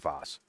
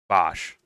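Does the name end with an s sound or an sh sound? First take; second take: s; sh. First: The name ends with a plain s sound. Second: The name ends with an sh sound. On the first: The speaker calls it wrong. "not Voss" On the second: The speaker calls it right. "sorry, Vosh"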